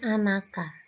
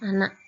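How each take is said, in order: First: An extra vowel a follows the final k. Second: The word ends on k with no vowel. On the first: The speaker calls it wrong. "anak biasanya membacanya anaka" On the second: The speaker calls it right. "yang kita maksud adalah anak"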